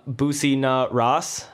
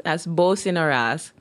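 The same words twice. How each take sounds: First: "Boosie Na Ross" said slowly and haltingly, with a long "oo" and "Ross" like the English name; sounding out "Boosie Na Ross" unsure, like a foreign phrase; mispronounced name. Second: "Bosi Na Ras" with a short "Bo-si" and "Ras" rhyming with "buzz", rising at the end; Jamaican pronunciation. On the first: Real, not acted. Host reading the shirt slogan aloud, unsure mispronunciation. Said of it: "I'm really bad with pronunciation".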